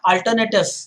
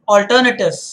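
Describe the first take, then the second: First: The first vowel is not an 'aw' sound. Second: The first vowel is an 'aw' sound. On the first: The speaker calls it wrong. "It is not alternative" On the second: The speaker calls it right. "Aw sound"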